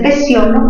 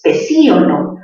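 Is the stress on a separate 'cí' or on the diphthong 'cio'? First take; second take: cio; cí. First: The stress falls on the diphthong syllable: pe-cio-lo. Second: The stressed i is its own syllable: pe-cí-o-lo. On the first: "mayor fuerza en cio" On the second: "cerrada con mayor fuerza de voz"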